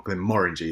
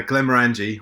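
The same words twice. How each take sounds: First: Glenmorangie with the stress on "MOR"; proper pronunciation. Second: Glenmorangie with the stress late, on "ran"; common mispronunciation. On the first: Host correcting the whisky's name, Glenmorangie properly pronounced with stress on "MOR". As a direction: say Glenmorangie as glen-MOR-in-jee, rhyming with orangey. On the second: Host naming the whisky brand in the news, Glenmorangie mispronounced with stress on "ran". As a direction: say Glenmorangie as glem-er-AN-jee, weakening the "mor". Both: Shown as a demonstration. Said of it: "as it's properly pronounced".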